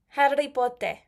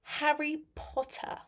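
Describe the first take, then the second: First: It is said in a Spanglish accent. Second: It is said in a British accent.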